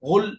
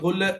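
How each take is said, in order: First: The final consonant ends plainly with no echo. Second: The final consonant bounces with a short echo. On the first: The speaker calls it right. "గోల్ గోల్ అంతే" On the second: The speaker calls it wrong. "లాం కల్కలా లేదు కాబట్టి గొల్ అనట్లేదు"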